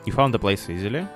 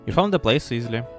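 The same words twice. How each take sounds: First: The voice rises at the end like a question. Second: The voice falls at the end like a statement. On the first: It is a question. The speaker calls it right. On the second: It is a statement. The speaker calls it wrong.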